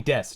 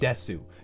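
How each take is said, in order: First: The final vowel is dropped. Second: The final vowel is fully pronounced. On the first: The speaker calls it right. "say des" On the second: The speaker calls it wrong. "Don't say desu"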